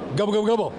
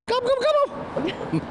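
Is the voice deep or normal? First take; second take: deep; normal. First: It is said in a deeper voice. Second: It is said in a normal voice.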